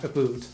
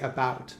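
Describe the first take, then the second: First: About is said with a stereotyped 'aboot' vowel. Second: About is said with a plain, ordinary vowel. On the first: The speaker calls it wrong. "not about" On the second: The speaker calls it right. "I like I say about"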